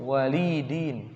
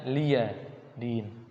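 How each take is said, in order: First: It is said as 'li din' with no 'ya'. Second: It is said as 'liya din' with a 'ya'. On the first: This is the reading of another tradition. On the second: This is the most widespread reading. "Bacanya liya din"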